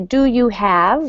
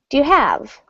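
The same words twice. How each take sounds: First: Every word is said fully and clearly. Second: 'Do you' is shortened and run together. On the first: The speaker calls it wrong. "we don't say do you have" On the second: The speaker calls it right. "do you gets reduced to, ... we say do you have?"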